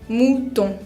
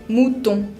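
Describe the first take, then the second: Both takes have the same delivery.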